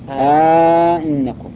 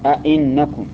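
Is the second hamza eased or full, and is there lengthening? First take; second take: eased, lengthened; full, short. First: The second glottal stop is softened, with a long vowel. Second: Both glottal stops are fully pronounced, no lengthening. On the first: "وعلى التسهيل أئنكم سهل" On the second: "تحقيق الهمزتين تقول أئنكم، هذا التحقيق"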